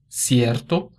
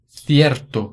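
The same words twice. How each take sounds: First: The first consonant is an s sound. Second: The first consonant is a th sound. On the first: This is how it is said in Latin America. "o som de S" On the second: This is how it is said in Spain. "o som interdental"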